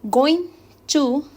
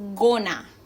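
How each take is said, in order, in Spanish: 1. La frase se dice en su forma completa. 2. La frase se reduce a 'gonna'.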